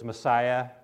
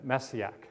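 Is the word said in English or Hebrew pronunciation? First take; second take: English; Hebrew. First: It is said with an English pronunciation. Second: It is said with a Hebrew pronunciation. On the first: "the English version is Messiah" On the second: "Hebrew is more like, see if I can say it"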